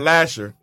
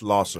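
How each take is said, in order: First: The middle consonant is an 'sh' sound. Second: The middle consonant is an 's' sound. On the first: The speaker calls it wrong. "Not Lasher" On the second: The speaker calls it right. "It's Losser"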